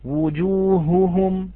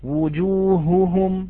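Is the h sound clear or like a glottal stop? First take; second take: clear; clear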